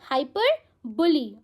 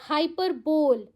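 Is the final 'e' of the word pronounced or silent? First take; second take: pronounced; silent. First: The word ends with a final 'ee' sound. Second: The word ends without a final vowel sound. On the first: The speaker calls it right. "It's pronounced as हाइपरबोली" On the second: The speaker calls it wrong. "No, wrong pronunciation"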